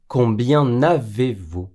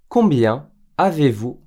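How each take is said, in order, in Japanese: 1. nの音がcombienをavezとつなげます。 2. combienはavezと分けたままで、nの音はありません。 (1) "Combien n'avez-vous とは言いません。" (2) "Et non"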